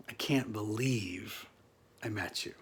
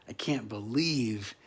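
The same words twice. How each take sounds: First: Whispered in disbelief; awed whisper. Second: Said in the usual way. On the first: Real, not acted. Awed at meeting Mister Acting.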